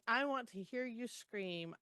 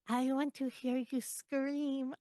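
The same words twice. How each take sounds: First: It is said in the reader's normal voice. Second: It is said in a put-on nymph creature voice.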